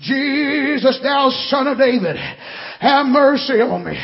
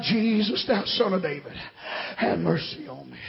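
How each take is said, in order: First: Fuller-voiced plea for mercy; measured imitation of a beggar calling out; retold cry. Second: Low, soft plea, sinking at the end; hushed prayer for mercy; subdued retold cry. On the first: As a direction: call it out with a long first word. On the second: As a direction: quote the cry quietly and reverently. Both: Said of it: "He cried".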